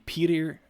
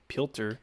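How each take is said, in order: First: The name is said without an L sound. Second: The name is said with an L-like sound. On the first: The speaker calls it wrong. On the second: The speaker calls it right.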